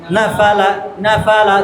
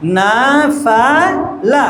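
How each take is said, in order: First: "না ফা লা" run together as one word; low, even drill of "না ফা লা"; joined up. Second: "না ফা লা" slowly, syllable by syllable; slow separated reading of "না ফা লা"; slowly at first. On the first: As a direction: repeat না ফা লা briskly, without gaps. Joined drill after slow take. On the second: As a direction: stretch না, ফা, লা with gaps between. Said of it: "আস্তে আস্তে বলবে প্রথমে". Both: Shown as a demonstration.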